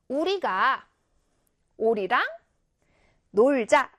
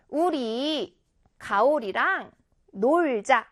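First: 우리가 as one word, pause, 오리랑, pause, 놀자; pause after 우리가. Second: Drawn-out 우리, pause, 가오리랑 as one word, then 놀자; pause after 우리. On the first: Teacher showing pupils the other break, pause between 우리가 and 오리랑. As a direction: attach 가 to 우리 and break before 오리랑. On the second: Teacher showing pupils a break, pause between 우리 and 가오리랑. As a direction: break before 가오리랑, keeping it whole, slowly. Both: Shown as a demonstration. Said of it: "이렇게 띄어 읽으면".

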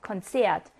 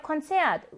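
First: Konzert read lower in the list, zert syllable hit; stress on the second syllable. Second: Konzert with the zert syllable hit higher; stress on the second syllable. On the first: Teacher reading Konzert in a list, stressing zert. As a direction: keep it low and lean on zert in Konzert. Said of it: "이음절에 강세가 오는 경우 읽어보고 갈까요". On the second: Teacher showing Korean students the stress on zert in Konzert. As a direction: lift and land on zert in Konzert. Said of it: "이 음절 강세어로 주의해야 해라고 했던 그 단어". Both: Shown as a demonstration.

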